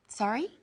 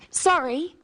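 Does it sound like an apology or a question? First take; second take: question; apology. First: It is said with the tune of a question. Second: It is said with the tune of an apology. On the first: The speaker wants the other person to repeat. "if we don't understand something or don't hear it" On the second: The speaker is apologising. "when we say sorry to apologise"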